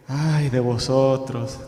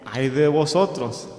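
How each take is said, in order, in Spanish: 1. Se dice con un tono decepcionado. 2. Se dice con un tono enojado. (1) "como decepcionado" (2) "o estaba enojado"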